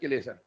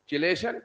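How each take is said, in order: First: The word begins with a k sound. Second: The word begins with a ch sound. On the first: The speaker calls it right. "एच is silent." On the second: The speaker calls it wrong. "मार्केट में चिलेशन चलता है"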